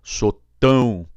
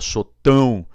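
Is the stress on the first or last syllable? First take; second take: last; last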